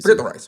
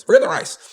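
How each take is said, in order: First: Said in the usual way. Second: Emphatic repeat. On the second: Shown as a demonstration.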